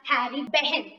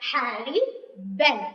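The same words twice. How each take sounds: First: An h sound is heard in the surname. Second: No h sound is heard in the surname. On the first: The speaker calls it wrong. "Don't pronounce it as Harry Ben. So it is the wrong pronunciation" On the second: The speaker calls it right. "Should pronounce it as Harry Ben. H is silent"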